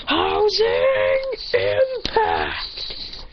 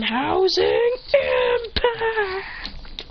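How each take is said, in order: First: Very drawn-out high strained yell; hammed-up battle shout; anime attack cry. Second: High, strained, stretched-out battle yell; hammed-up Bakugo-style attack shout; anime attack cry. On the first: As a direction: call out your finishing move, stretching every word. Shouted attack name while punching. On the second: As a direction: scream the move name in slow motion. Attack name called again.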